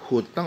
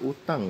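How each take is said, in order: First: The word begins with an h sound. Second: The word begins directly with a vowel. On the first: This is the official dictionary form. "ejaan benarnya itu hutang" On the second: This is how ordinary people say it. "masyarakat itu pengucapannya utang"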